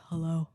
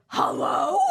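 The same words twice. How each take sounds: First: Said in the usual way. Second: Loud, high, incredulous greeting; hammed-up indignant bark; outraged. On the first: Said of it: "He gets on and he's like". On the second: Junior doctor to late-calling attending, outraged. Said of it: "I'm like".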